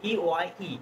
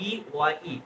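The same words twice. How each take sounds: The two takes are said the same way.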